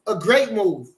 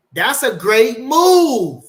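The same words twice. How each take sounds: First: Said in the usual way. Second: Stretched out slow and much louder, higher; excited praise. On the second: Real, not acted. Praising Nate's fight plan, drawn out and loud. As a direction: savour every word of it.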